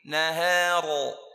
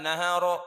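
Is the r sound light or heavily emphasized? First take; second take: heavy; light. First: The r sound is heavy and strongly emphasized. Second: The r sound is light and less emphasized. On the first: "lebih ditekankan lagi, ditanqik lagi" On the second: "enggak masalah"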